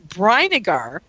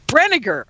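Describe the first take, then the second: First: The name does not rhyme with vinegar. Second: The name rhymes with vinegar. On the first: The speaker calls it wrong. "did I say that right" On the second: The speaker calls it right. "it's like vinegar with a B R"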